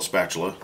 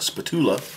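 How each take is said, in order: First: The word is pronounced in the ordinary standard way. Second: The word is pronounced in an unusual, altered way. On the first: The common, boring way most people say it. "which some people call a spatula, and that sounds kind of boring" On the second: A playful household mispronunciation. "it's a tradition in our house to mispronounce common household items"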